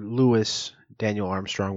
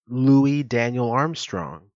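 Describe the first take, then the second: First: Louis is pronounced in an American way. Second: Louis is pronounced in a French way. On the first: "or the American way" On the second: "whether you're saying it in the French way"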